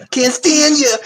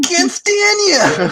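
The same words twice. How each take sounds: First: High laughing mock yell of a catchphrase; laughing, higher and slower. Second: Even higher, drawn-out mock yell; slow, high, hammed-up repeat; catchphrase. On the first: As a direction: toss it out like a sitcom line. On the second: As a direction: stretch the catchphrase out for laughs.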